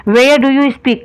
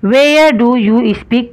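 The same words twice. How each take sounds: First: Said in the usual way. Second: Each word drawn out very slowly; slow dictation. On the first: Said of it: "teacher repeats at normal pace". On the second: Shown as a demonstration. Teacher to students copying the question, very slow dictation. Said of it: "teacher dictating sentence".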